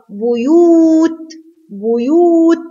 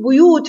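First: بيوت with a high, long oo; long waw. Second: Said in the usual way. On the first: Shown as a demonstration. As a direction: stretch the second vowel of بيوت slowly. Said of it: "بيوت فيها مد واو". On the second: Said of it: "فيها مد واو".

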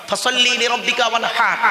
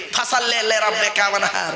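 First: ফাসাল্লি লিরাব্বিকা ওয়ানহার with careful Arabic sounds and throat h; correct recitation. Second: ফাসাল্লি লিরাব্বিকা ওয়ানহার said sloppily as banha, no throat h; mock wrong recitation. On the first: Preacher giving the correct recitation to the crowd. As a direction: recite it the proper way. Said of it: "এই গলার ভেতর থেকে হেটা উচ্চারণ হবে". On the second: Preacher mimicking how people mispronounce the verse. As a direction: imitate the careless village recitation. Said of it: "আর আমরা উচ্চারণ করতে গিয়ে কি বলি". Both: Shown as a demonstration.

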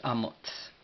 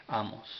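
First: "Amots" ending in a voiceless t-s; final TS sound. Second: Said in the usual way. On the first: Shown as a demonstration. Teacher showing the Amharic last letter, final TS pronunciation. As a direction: finish "Amots" on a crisp ts, no vowel. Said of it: "nos da ese sonido como, como T Z". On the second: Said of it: "lo cual significa, pues, amárico, el profeta".

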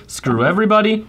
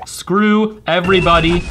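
First: Said in the usual way. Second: Slow, deliberate SCREW everybody; drawn-out curse. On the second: Real, not acted. Player cursing all rivals, slow and emphatic. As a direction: stretch out each word of the curse. Repeats curse slowly for effect.

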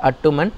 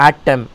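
First: அட்டுமன் as three syllables, "at-TOO-man"; wrong pronunciation. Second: ஆட்டம் as two syllables, "AA-tam"; correct pronunciation. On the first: Teacher warning pupils off a mistake, wrong pronunciation. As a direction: say அட்டுமன் with a short "a" and an added "oo". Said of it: "It is not அட்டுமன்". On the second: Teacher correcting pupils on the word for fall, correct pronunciation. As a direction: open ஆட்டம் on a long "aa", no "oo". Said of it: "it is ஆட்டம்". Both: Shown as a demonstration.

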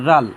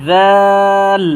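First: Said in the usual way. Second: জাল with tongue at tooth tips, held long; drawn three counts. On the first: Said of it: "এ হরফটার নাম হচ্ছে". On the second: Shown as a demonstration. Teacher models a letter for learners, drawn long. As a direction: stretch the vowel of জাল, loud and level. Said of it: "নরম আওয়াজে তিন আলিফ টেনে".

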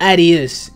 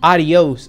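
First: "Adios" misread as a squashed "AD-ees"; misread pronunciation. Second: "Adios" said "ah-dee-OHS"; Spanish pronunciation. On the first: Real, not acted. Reader stumbles on foreign farewell, "Adios" squashed to "AD-ees". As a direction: say "Adios" with a flat English A and swallowed ending. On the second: Shown as a demonstration. Reader corrects himself to Spanish, "Adios" as "ah-dee-ohs". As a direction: open A and full "ohs" ending on "Adios". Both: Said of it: "The Spanish".

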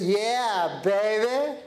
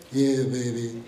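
First: Put-on bright, bouncy "Yeah, baby" with a lift on "baby"; upbeat attitude. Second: Put-on much lower, deflated "Yeah, baby" dropping flat; glum attitude. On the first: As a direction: say "Yeah, baby" like you own the day. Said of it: "What's my attitude jacket like today?". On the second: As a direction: mumble "Yeah, baby" with zero energy. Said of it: "Or is it". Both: Shown as a demonstration.

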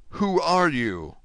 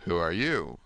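First: Slow, high, emphatic demand; urgent cry. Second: Low, subdued question; unseen prisoner's voice. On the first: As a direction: demand an answer, raised and drawn out. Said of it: "cried Dante". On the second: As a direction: ask back in a lowered, guarded voice. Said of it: "said the voice". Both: A narrator's reading.

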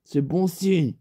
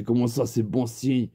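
First: Said in the usual way. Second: Low, sceptical repeated question; doubtful echo. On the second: Retold or imitated. Teller doubting his friend's good omen, low puzzled echo. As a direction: drop the pitch and query it.

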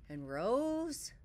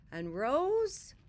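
First: Building up. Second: Higher and louder rising; building up higher. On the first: Feeling rising inside Bear. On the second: Narrator builds the rising feeling inside Bear, higher. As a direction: lift it as the feeling grows. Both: A narrator's reading.

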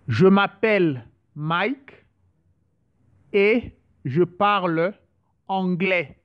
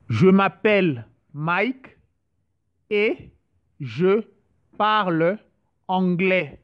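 First: Slow, even model sentence for learners; slow practice phrase. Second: Each word set apart with pauses. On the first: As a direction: say "Je m'appelle Mike et je parle anglais" slowly as one smooth sentence. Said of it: "some few sentences just to, to practice". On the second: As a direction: break "Je m'appelle Mike et je parle anglais" into separate words, pausing after "et" and "je". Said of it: "just to, to practice". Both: Shown as a demonstration.

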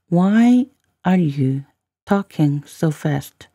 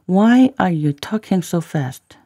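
First: Very slow teaching delivery with pauses; slow, in chunks. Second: Said in the usual way. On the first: Shown as a demonstration. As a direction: spell out the phrase slowly, chunk by chunk. Teacher repeats line in slow chunks.

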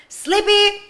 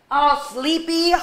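First: Sighed yawny sleepy with a lifted pitch; a teacher acting sleepy for the kids, with a big sigh. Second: Said in the usual way. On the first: Shown as a demonstration. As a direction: sigh it out like you're ready for bed.

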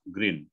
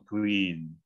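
First: GREEN said as grin, short lax i; short vowel. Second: GREEN with a long, tense ee; long vowel. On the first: Coach contrasting grinning with the colour, short vowel. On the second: Coach contrasting the colour with grinning, long vowel. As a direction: draw out the ee in GREEN. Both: Shown as a demonstration.

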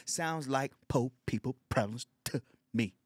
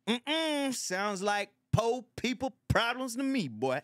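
First: Said in the usual way. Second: High, slow, mocking old-man voice; mocking old neighbor. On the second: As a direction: sneer it down from a lofty old-man pitch. Old neighbor mocking broke people.

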